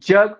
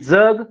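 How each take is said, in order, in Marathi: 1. तो तालव्य 'j' आवाजाने सुरू होतो. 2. तो दंत्य 'dz' आवाजाने सुरू होतो. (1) "जग पृथ्वी" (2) "जग जिवंत राहा"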